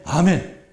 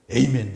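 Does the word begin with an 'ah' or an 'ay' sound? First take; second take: ah; ay. First: The first vowel is a plain 'ah' sound. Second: The first vowel is an 'ay' glide sound. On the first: The speaker calls it right. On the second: The speaker calls it wrong.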